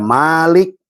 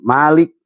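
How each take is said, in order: First: The first vowel is drawn out long. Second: The first vowel is kept short.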